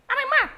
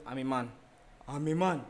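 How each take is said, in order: First: Squeaky shrill-high yelled "I'm a man"; a squealing high-pitched voice showing how differently one line can sound. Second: Said in the usual way. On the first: Shown as a demonstration. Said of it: "someone can say". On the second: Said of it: "And I'm saying".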